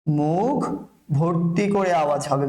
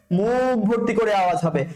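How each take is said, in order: First: Slow, drawn-out teaching phrase; slow dictation. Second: Said in the usual way. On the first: Shown as a demonstration. Teacher drilling students on a pronunciation rule, slow dictation. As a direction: stretch each word for learners to follow.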